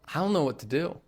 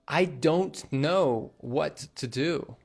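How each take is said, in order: First: The words run together with a soft D. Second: Every word is said fully and clearly. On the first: The speaker calls it right. "There's a very, very soft D on that don't" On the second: The speaker calls it wrong. "We wouldn't normally say"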